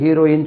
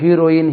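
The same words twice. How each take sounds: Both takes have the same delivery.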